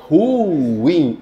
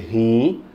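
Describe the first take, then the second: First: The word is said as two syllables. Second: The word is said as one syllable. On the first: The speaker calls it right. "Ruim é ruim. Elas são duas sílabas" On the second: The speaker calls it wrong. "Não pode dizer rim"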